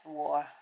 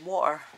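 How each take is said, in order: First: The t is clearly and fully pronounced. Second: The t is dropped from the middle. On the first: This is the careful, proper way to say it. "I try to say it properly" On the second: This is how people here usually say it. "We say water. We don't have a T"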